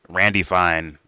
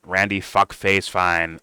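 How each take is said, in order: First: Said in the usual way. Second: "Randy Fuckface Fine" drawn out slowly, each word leaned on; slow mocking emphasis. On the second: Real, not acted. Host insulting Randy Fine, slow and contemptuous.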